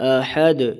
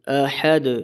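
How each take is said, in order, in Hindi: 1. आख़िरी d में हल्की सी गूंजती हुई जुम्बिश होती है। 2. आख़िरी d में हल्की सी गूंजती हुई जुम्बिश होती है।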